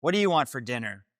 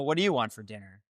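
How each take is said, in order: First: Said in the usual way. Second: "you" raised and leaned on; stress on YOU. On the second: Acted. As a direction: toss the question back, hitting "you". Throws the same question back.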